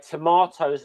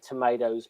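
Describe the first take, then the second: First: It is said with a British pronunciation. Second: It is said with an American pronunciation. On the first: "more of a British version of it" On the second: "more the American version"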